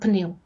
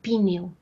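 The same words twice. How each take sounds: First: The p and n are said together, no vowel. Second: A vowel is inserted between the p and n. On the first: "e não pneu" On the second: "No português do Brasil inserem-se vogais para quebrar sequências de consoantes"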